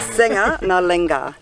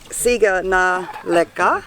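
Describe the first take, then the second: First: The consonants are said as ng sounds. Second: The consonants are said as plain g and k. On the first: The speaker calls it right. "but it's actually senga na lenga" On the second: The speaker calls it wrong. "this says siga na leka"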